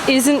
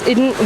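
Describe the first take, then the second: First: An s sound comes before the n. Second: A d sound comes before the n.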